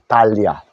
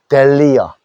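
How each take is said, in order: First: The first vowel sounds like 'ah'. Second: The first vowel sounds like 'eh'. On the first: This is the Korean loanword pronunciation, still understood. "달리아라고 하면 틀리나? 알아듣는다 그랬죠?" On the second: This is the English pronunciation. "영어로는 델리어"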